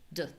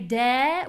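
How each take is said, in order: First: The vowel is low, unclear and short. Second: The vowel is clear, full and high. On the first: "my voice is low. The vowel is unclear. And it's short" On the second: "a very clear de"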